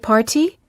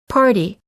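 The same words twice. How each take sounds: First: The middle T is a clear, crisp T. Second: The middle T is a quick D sound. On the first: The speaker calls it wrong. "We don't say" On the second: The speaker calls it right. "we say"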